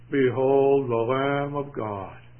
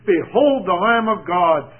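First: It is said flatly, without excitement. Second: It is said with great excitement. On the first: The speaker is unmoved by the announcement. The speaker calls it wrong. "Or do you think he said it" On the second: The speaker is thrilled by the announcement. The speaker calls it right. "I think he was as excited as it's possible to be"

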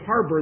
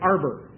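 First: The word begins with an H sound. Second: The word begins with a vowel, no H. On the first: "they don't pronounce their H's either. And rather than saying harbor" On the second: "they say arbor"

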